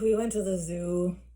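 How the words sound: It is said in an annoyed, irritated voice. "In an annoyed voice"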